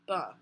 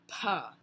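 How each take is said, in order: First: The consonant has no puff of air after it. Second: The consonant has a puff of air after it. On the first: "no puff of air at the end" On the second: "in English, P would be pronounced"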